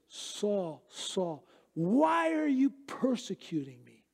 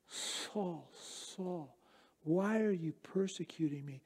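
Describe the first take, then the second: First: The voice sounds gruff, harsh and disappointed. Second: The voice sounds soft, gentle and compassionate. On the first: The speaker is angry and disappointed with the listener. The speaker calls it wrong. "with a very gruff and disappointed tone of voice" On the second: The speaker cares deeply for the listener. The speaker calls it right. "so unbelievably compassionate and gentle and loving"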